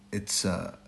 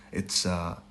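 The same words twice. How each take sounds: The two takes are said the same way.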